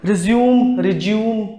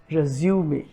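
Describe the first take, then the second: First: रिज्यूम in two syllables, silent final e; wrong pronunciation. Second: रिज्यूमे ending in a sounded "may"; correct pronunciation. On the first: Teacher quoting how many of us say it, wrong two-syllable रिज्यूम. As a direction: say रिज्यूम like the verb "resume". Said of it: "जो कि गलत है". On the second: Teacher giving the correct French-derived word, रिज्यूमे with final "may". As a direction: say रिज्यूमे low, with the final e voiced. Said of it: "सही pronunciation है वो है". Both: Shown as a demonstration.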